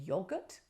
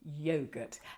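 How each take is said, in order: First: The word is said the British way. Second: The word is said the non-British way. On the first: This is how people in the United Kingdom say it. The speaker calls it wrong. "what you in the United Kingdom might call a yoghurt" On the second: This is how the speaker's own people say it. The speaker calls it right. "we call it yogurt, and I think you'll find that's the more refined pronunciation"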